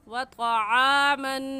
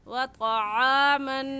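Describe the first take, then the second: No difference in how they are said.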